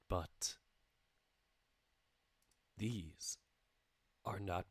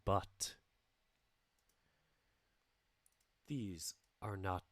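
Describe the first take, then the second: The two takes are said the same way.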